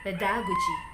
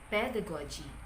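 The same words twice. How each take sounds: First: The stress is not on the first syllable. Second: The stress is on the first syllable. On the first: The speaker calls it wrong. "Before, I pronounced this as" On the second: The speaker calls it right. "the correct pronunciation is pedagogy. The primary stress lies in the first component"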